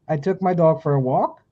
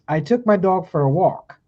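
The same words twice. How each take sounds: First: The voice rises at the end like a question. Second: The voice falls at the end like a statement.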